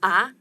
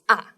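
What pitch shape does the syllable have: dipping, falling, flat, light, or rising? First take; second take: rising; falling. First: The pitch starts low and rises. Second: The pitch starts high and falls. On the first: "You start with lower pitch and rise the tone" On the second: "you start from the higher place and goes down"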